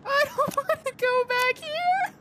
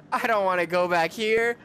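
First: Much higher, squealing through nervous laughter; scared laughing squeal. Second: Said in the usual way. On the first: Real, not acted. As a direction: laugh it out in a high panicked squeal. Repeats line while laughing scared.

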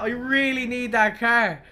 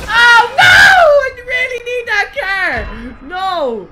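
First: Said in the usual way. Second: High, loud wailing shout, drawn out slowly; anguished shout. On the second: Real, not acted. Streamer losing his prized car, wailing shout. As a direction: howl the loss at the screen.

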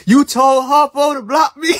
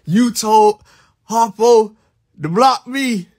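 First: Loud, high call-out with a laugh in it; laughing shout. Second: Each word set apart with pauses, "Harpo" hit loud; slow spaced accusation. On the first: Streamer laughing at chat who told Harpo to block him, shouting. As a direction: laugh it out, calling them on it. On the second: Streamer spelling out the betrayal to chat, slow and deliberate. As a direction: lay out You told... Harpo... to block me, one piece at a time. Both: Real, not acted.

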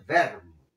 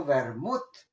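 First: "vermouth" said VER-mut, stressed at the start; Piedmontese first-syllable stress. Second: "vermouth" said ver-MUT, stressed at the end; stress on last syllable. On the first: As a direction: hit the first syllable of "vermouth" and let it fall. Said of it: "e in piemontese alle vermouth". ("vermouth" a la piamontesa, con acento en la primera sílaba) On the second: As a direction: push the second syllable of "vermouth", rising. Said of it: "mi dico vermouth". ("vermouth" con acento en la última sílaba) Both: Shown as a demonstration.

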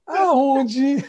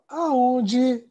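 First: Aonde agudo e alto, subindo no fim. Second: Aonde, alto e agudo, como recusa; aonde indignado. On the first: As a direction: aonde em tom de recusa espantada. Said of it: "Dependendo da entonação". (aonde agudo e subindo) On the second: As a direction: aonde como quem diz de jeito nenhum. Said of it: "dependendo da entonação". (aonde agudo e indignado) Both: Shown as a demonstration.

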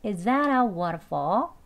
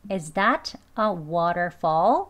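First: "Is that a waterfall" as "izzada wa-ruh-faw"; linked conversational pronunciation. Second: "Is that a waterfall" slow, words kept apart; careful learner pronunciation. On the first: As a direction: slowly run the words together, weak final L. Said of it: "그렇게 발음해보겠습니다". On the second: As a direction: sound each word fully, clear t in "that". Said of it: "배우는 발음으로". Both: Shown as a demonstration.

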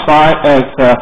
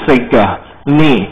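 First: "sign at" said as the English words sign and at, split apart; wrong reading. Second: "significant" said slowly as one word, sig-NI-fi-cant; correct reading. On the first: Teacher showing students the wrong way to read it, split into sign and at. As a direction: read "sign at" like "sign" plus "at", the way a careless student does. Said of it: "这个不要给我念成sign at you can哦". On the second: Teacher showing the class the right pronunciation, slow and careful. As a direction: stretch out "significant" carefully, syllable by syllable. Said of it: "要这样念才对".

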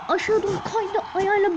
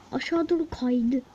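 First: "Aşağı doğru kaydı" said higher with a rise on "aşağı"; "Aşağı doğru kaydı" raised, excited recap; lively retelling. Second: Said in the usual way. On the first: Retold or imitated. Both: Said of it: "Adam ne yaptı biliyor musunuz?".

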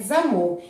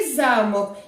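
First: «замок» as za-MOK, the door lock; stress on second syllable. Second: «замок» as ZA-mok, the castle; stress on first syllable. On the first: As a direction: put the stress on «мок» in «замок». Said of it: "Той, куди ми вставляємо в двері ключ". (наголос на другому складі: «замок») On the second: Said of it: "де живуть лялькові персонажі". (наголос на першому складі: «замок») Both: Shown as a demonstration.

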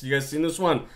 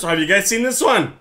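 First: Said in the usual way. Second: Accidental jump up in pitch. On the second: Real, not acted. Streamer asking viewers if they've seen it, voice pitching up. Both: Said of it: "I don't know why my voice pitched there".

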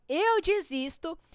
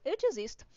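First: Slow, drawn-out "Eu desisto" with a rising end; mock-despair, stretching "Eu desisto"; dramatic give-up. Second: Said in the usual way. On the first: Real, not acted. Desiste de falar tigre. ("Eu desisto" arrastado e dramático)

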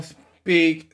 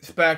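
First: Small speak with a long ee vowel; misread as speak. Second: Speck with a short e; corrected to speck. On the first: Child reading the book aloud misreads speak for speck. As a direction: read speak as if it rhymes with peek. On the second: Child reading the book aloud corrects it to speck. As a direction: fix it to speck, short and clipped. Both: Shown as a demonstration. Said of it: "speck, something like that".

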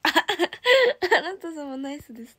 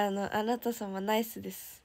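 First: Slow, louder and higher, laughing through it; laughing repeat. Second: Said in the usual way. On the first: Real, not acted. Idol repeating a fan's funny comment, laughing. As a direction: savour the phrase while laughing.

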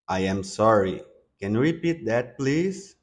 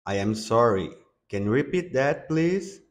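The two takes are said the same way.

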